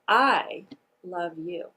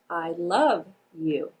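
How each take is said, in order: First: The emphasis falls on the word I. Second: The emphasis falls on the word love. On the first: "The first word that I'm going to emphasize is the word I" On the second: "place the emphasis on the word love"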